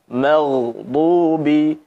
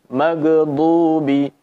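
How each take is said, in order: The two takes are said the same way.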